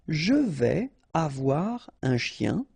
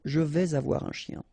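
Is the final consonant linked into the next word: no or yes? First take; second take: no; yes. First: The final consonant is not linked to the next word. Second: The final consonant is linked to the next word. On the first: "So you don't make the liaison" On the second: "if you want to make the liaison"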